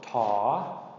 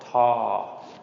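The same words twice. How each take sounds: First: The pitch rises on a long vowel. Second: The pitch stays level and mid on a long vowel. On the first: "a long rising tone" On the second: "long mid-tone"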